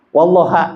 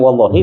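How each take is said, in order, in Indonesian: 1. Kata itu berakhir dengan vokal a. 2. Kata itu berakhir dengan vokal i. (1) "itu kan beda beda harkat" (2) "Asalnya wallahi"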